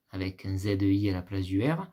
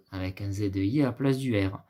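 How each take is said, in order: Both takes have the same delivery.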